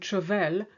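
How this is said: It is said with a flattened English A. The speaker calls it wrong. "You tend to say"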